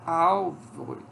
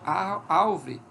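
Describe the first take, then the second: First: The word is said with an L before v. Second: The same.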